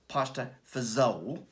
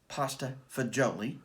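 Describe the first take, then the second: First: It is said in a New York accent. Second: It is said in a standard way.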